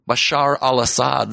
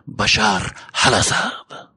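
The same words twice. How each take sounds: First: The name is said in a plain accent. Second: The name is said in a put-on accent.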